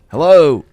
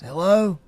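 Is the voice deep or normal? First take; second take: deep; normal. First: It is said in a deeper voice. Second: It is said in a normal voice.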